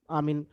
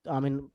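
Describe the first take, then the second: No difference in how they are said.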